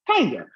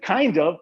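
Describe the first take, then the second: First: The word 'of' shrinks to a short vowel. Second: The word 'of' is said fully.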